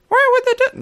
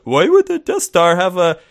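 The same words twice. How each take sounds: First: High, whiny nerd voice; squeaky nasal geek impression. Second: Said in the usual way. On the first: Shown as a demonstration. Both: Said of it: "what's my nerd voice?".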